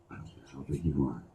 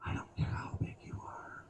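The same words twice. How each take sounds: First: Said in the usual way. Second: Hushed unvoiced whisper. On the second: Comic whispering to a big guy in the crowd. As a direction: lean in and whisper it to them.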